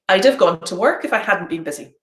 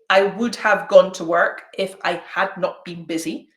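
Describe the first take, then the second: First: 'I would' and 'had not' are contracted. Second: 'I would' and 'had not' are said in full. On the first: The speaker calls it right. "I say" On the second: The speaker calls it wrong. "I don't say"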